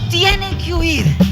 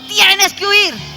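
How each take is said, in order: First: It is said in a calm, plain way. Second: It is said forcefully, as if chasing someone off.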